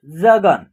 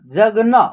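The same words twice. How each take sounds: First: Said in the usual way. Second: जगना with an open vowel after the final न; final vowel sounded. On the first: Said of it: "जगन ही उसका उच्चारण होगा". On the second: Shown as a demonstration. Teacher showing pupils the last letter, जगना with full final vowel. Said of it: "न का उच्चारण".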